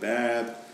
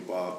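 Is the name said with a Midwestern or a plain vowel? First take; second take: Midwestern; plain. First: The name has a flat Midwestern vowel. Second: The name has a plain, ordinary vowel.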